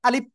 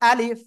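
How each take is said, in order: First: The final f is cut off without escaping air. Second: The final f releases a light stream of air. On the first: The speaker calls it wrong. "যদি বাতাস না বের হয় তাহলে কিন্তু আপনার সহি হবে না। যদি বলেন এরকম আলিফ আলিফ" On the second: The speaker calls it right. "লেগে হালকা বাতাস বের করতে হবে"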